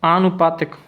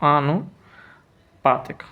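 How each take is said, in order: First: Said in the usual way. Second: आनुपातिक slowly, pausing between आनु and पातिक; measured, gapped आनुपातिक; slow dictation. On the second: Shown as a demonstration. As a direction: split आनुपातिक in two for the writer. Teacher dictates spelling syllable by syllable.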